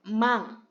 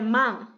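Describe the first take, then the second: First: The word ends in a nasal with the tongue still. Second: The same.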